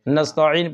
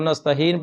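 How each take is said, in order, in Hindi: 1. बीच का स्वर ग्लोटल रुकावट के बाद आता है, h नहीं। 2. बीच के स्वर से पहले h की ध्वनि आती है। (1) "नस्तईन पढ़ना है" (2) "तो नस्तहीन पढ़ते हैं"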